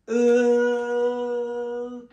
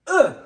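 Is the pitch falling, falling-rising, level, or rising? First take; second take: level; falling. First: The pitch stays level and flat. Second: The pitch falls downward. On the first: "c'est E tout plat" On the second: "Le quatrième"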